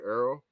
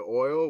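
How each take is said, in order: First: The word is said in a New Orleans accent. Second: The word is said in a standard accent. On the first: "we we say Earl" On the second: "we don't say oil"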